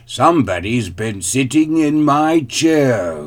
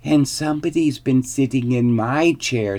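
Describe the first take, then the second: First: Loud, great big bear voice; growling father bear. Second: High, shrill little voice; squeaky baby bear. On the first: Father bear finds his chair used, growling. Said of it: "growled the father bear in his great big voice". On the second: Baby bear finds his chair used, squeaking. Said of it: "squeaked the baby bear in his shrill little voice". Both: A narrator's reading.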